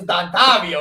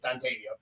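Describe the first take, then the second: First: The name is pronounced in an Italian style. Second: The name is pronounced in a plain English style. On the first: The speaker calls it wrong. "the Italian in me says that that says Dontavio" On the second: The speaker calls it right. "That's not it. It's Dontavio"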